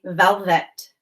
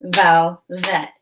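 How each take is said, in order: First: Said in the usual way. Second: "Velvet" split as vel, pause, vet; separated syllables. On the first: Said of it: "I'm going to say the word". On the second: Shown as a demonstration. Teacher models breaking "Velvet" apart for pupils, syllable by syllable. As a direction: say "Velvet" in two detached beats. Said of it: "Now say the syllables in velvet".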